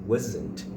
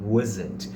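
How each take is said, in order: Both takes have the same delivery.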